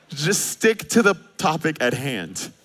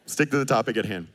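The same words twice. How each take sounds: First: Slow, deliberate and a bit louder; slow emphasis. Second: Said in the usual way. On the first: Shown as a demonstration. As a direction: spell out "Just stick to the topic at hand" slowly.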